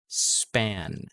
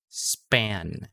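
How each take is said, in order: The two takes are said the same way.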